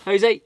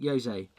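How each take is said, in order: First: Jose with a Spanish H sound, ho-zay; Spanish pronunciation of Jose. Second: Jose with an English J, like joe-zay; English reading of Jose. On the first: Correcting the name Jose on a postcard, Spanish way. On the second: Reading the sender's name Jose out, English J sound. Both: Shown as a demonstration. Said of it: "Jose or Jose?".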